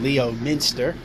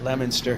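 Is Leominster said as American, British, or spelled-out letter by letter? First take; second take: spelled-out; American. First: The name is sounded out syllable by syllable. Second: The name is said in the American way. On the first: It is said this way to provoke corrections. The speaker calls it wrong. "I just love saying it just to hear people tell me how to properly pronounce Leominster" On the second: This is how locals in the States say it. The speaker calls it right. "we pronounce it Leominster here in the States"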